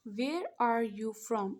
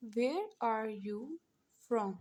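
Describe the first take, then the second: First: "Where are you from?" drawn out word by word; very slow dictation. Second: "Where are you from?" said slowly, gently, in pieces; teacher repeating the English question slowly for the class; slow dictation. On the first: Teacher slowly dictating the English question to students. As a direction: spell it out slowly as you write. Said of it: "तो हम पहले लिख लेते हैं". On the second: Teacher repeating the English question slowly, in pieces. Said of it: "English में कहते हैं". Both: Shown as a demonstration.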